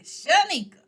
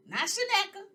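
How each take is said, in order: First: "Shanika" said high and loud, sha-NEE-ka with a long ee; right name. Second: "Shaneka" said high, sha-NEK-a with a short e; wrong name. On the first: Host spelling out her real name to viewers, loud and high. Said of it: "My real name is Shanika". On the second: Host mocking the misspoken name, high "Shaneka". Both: Shown as a demonstration.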